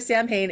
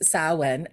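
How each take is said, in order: First: It is said as spelled, sam-hain. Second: It is said the Gaelic way, not as spelled. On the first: The speaker calls it wrong. "you hear Sam Hain and you cringe" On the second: The speaker calls it right. "it is Samhain"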